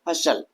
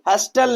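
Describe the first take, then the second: First: The t sound is left silent. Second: The t sound is clearly pronounced. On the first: The speaker calls it right. "हर्षल पढ़ेंगे... यहां पर हमारा टी क्या है, silent है" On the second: The speaker calls it wrong. "हस्टल नहीं पढ़ेंगे"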